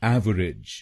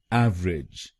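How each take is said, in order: First: एवरेज said as ev-er-ij; teacher models एवरेज in three syllables; three-syllable pronunciation. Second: एवरेज said as ev-rij; teacher models एवरेज in two syllables; two-syllable pronunciation. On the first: Teacher gives students the first correct form. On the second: Teacher gives students the second correct form. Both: Shown as a demonstration. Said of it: "इसको बोलिएगा".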